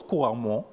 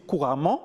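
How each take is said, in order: First: "couramment" pronounced like "couramon"; "an" devient "on". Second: Said in the usual way. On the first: Shown as a demonstration. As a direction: round the last nasal of "couramment" to "on". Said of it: "an devient on". (« couramment » prononcé « couramon ») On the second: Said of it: "pour dire couramment".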